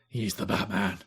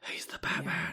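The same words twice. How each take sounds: First: It is said in a non-whispery Batman voice. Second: It is said in a whispery Batman voice.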